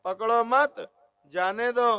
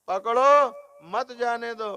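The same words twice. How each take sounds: First: "पकड़ो मत" joined, a break, then "जाने दो"; pause after मत. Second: "पकड़ो", a clear break, then "मत जाने दो" as one phrase; pause after पकड़ो. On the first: Preacher showing how phrasing flips meaning, pause after मत. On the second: Preacher showing how phrasing changes meaning, pause after पकड़ो. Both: Shown as a demonstration. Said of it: "बोलने के भेद से".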